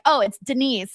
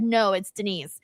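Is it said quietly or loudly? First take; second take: loudly; quietly. First: It is said a little louder. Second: It is said at normal volume.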